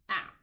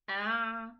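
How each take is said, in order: First: The throat sound is closed off abruptly. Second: The throat sound runs briefly before stopping. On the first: The speaker calls it wrong. "Don't close the makhraj. Don't say ah" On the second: The speaker calls it right. "the sound of the Ain will run a little bit and stops"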